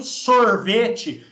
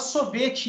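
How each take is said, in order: First: It is said with a drawn-out R sound. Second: It is said with no R sound. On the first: It suggests an R belongs in the formula. The speaker calls it wrong. "não sorvete, porque senão você pode achar que tem um R aí no meio" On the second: It stands for S zero plus V T. The speaker calls it right. "fala sorvete"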